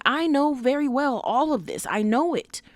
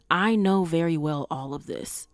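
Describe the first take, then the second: First: Higher, insistent quoting of Nana K's inner voice; emphatic Nana K. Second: Said in the usual way. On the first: Retold or imitated. Quoting Nana K's inner monologue to viewers, emphatic. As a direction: press the line home as her self-aware thought. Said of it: "Nana K is saying". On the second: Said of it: "'cause she's saying".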